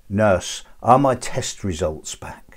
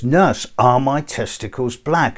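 First: Slow, deliberate punchline; imitating a patient carefully making himself understood; unmasked patient. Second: Slow, slurred imitation of a masked patient; laboured, muffled plea to a nurse. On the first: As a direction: spell it out slowly for the nurse. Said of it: "pulls the ventilator mask off of his face". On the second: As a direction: draw it out as if through a ventilator. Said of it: "it's coming through a bit muffled".

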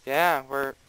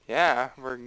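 Both takes have the same delivery.

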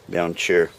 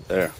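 First: "cheer" said for "there"; mispronounced "there". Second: Said in the usual way. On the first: Real, not acted. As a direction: says "cheer" with a ch sound instead of th. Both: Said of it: "Oh, I said cheer".

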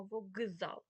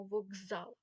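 First: «вокзал» split, with the к held apart from зал; pronounced as written. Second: «вокзал» with к voiced to ґ, воґзал; pronounced as heard. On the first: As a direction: separate the к in «вокзал» from what follows. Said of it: "А ми пишемо". (за написанням: «вок-зал») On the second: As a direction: run «вокзал» together with a ґ sound. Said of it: "ми чуємо". (вимова з дзвінким ґ: «воґзал») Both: Shown as a demonstration.

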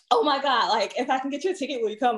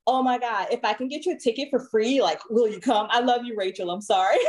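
First: Mock the gushing coworker, quickly; light hammed-up valley girl; imitating coworker's valley-girl talk. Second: A hint of gushing valley girl; imitating coworker's valley-girl talk. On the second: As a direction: lightly mimic an excited white coworker. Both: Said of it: "That's how she talks".

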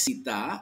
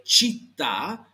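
First: "città" said with an s, as "sità"; quick learner's error "sità" for "città"; wrong pronunciation. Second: "città" with ch, as "cheet-TAH"; deliberate Italian "città", stress on the last vowel; corrected pronunciation. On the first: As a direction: show the mistake: "città" starting like "see". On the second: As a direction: model "città" slowly, ch onset and held t. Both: Shown as a demonstration. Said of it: "cuidado que eso no es".

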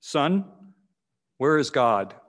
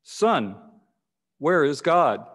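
First: A hint of a stern pastor asking "Son, where is God?"; lightly voiced stern question, "where" leaned on. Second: "Son, where is God?" a little firmer and louder, "where" pressed; firmer, louder repeat of the question. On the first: Pastor to the young boy, a hint of sternness. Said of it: "asked him sternly". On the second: Acted. Pastor repeating his question to the boy, firmer and louder. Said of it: "in a little firmer and louder".

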